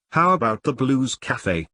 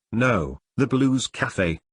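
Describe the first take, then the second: First: Said in the usual way. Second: Slowly, spelling out Blues Cafe; slow clear correction. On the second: Acted. [name] corrects Tyler's misheard cafe name, slow and clear. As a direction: set him straight, word by word.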